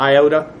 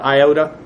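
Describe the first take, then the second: First: It is pronounced the anglicized English way. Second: The same.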